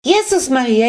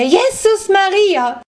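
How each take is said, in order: First: Put-on high, loud old woman's shriek; frantic elderly cry of alarm; hysterical shriek. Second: Very high, loud and slow, Jesus stretched into a wail; old woman's slowed, wailing scream; drawn-out hysterical shriek. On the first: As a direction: scream it in sudden shock. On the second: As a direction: let the second Jesus Maria climb into a long panicked shriek. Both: A narrator's reading. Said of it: "ganz hysterisch kreischen".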